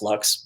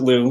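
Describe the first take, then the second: First: The word ends with a clear x sound. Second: The word ends on the vowel, without x. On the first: This is the standard dictionary pronunciation. "if you look in the dictionary, uh, L U X is pronounced lux" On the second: This is the brand's own pronunciation. "we want to just make it our own thing. So we pronounce it Lu"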